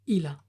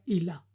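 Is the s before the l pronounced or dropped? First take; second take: dropped; dropped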